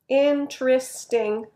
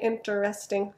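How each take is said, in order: First: The word is said in a shortened, reduced form. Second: The word is said with every syllable fully sounded. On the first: The speaker calls it right. "If you're speaking, then the word interesting sounds like interesting" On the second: The speaker calls it wrong. "We don't say interesting, so be careful"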